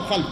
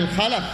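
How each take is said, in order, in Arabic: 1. لا تأتي بعد اللام أي حركة، فتُنطق khalf. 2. تأتي بعد اللام فتحة، فتُنطق khalaf. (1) "هذا هو الخلف" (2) "بالفتح"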